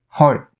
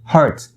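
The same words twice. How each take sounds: First: The final T sound is stopped, not released. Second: The final T sound is fully released. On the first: The speaker calls it right. "You would want to stop the T sound" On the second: The speaker calls it wrong. "But you don't want to say it that way"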